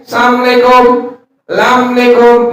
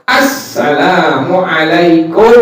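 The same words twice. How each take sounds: First: Assalamualaikum slurred as samlekom, higher; clipped lazy Assalamualaikum; mock sloppy greeting. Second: Assalamualaikum slow and complete; every syllable of Assalamualaikum; careful proper salam; correct full greeting. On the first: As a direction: careless salam. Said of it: "salam lu salah". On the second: Shown as a demonstration. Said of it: "Baru kita bilang apa?".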